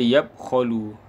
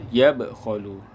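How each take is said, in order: First: The b is said plainly without a bounce. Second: The b is said with an echoing bounce. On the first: The speaker calls it wrong. "tak tepat" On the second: The speaker calls it right. "dia ada qalqalah"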